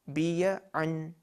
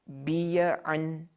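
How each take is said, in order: Both takes have the same delivery.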